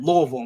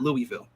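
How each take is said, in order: First: The name has the locals' pronunciation. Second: The name has an outsider's pronunciation. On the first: The speaker has spent time in the city. The speaker calls it right. "you said Louisville" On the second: The speaker has not spent time in the city. The speaker calls it wrong. "not Louisville"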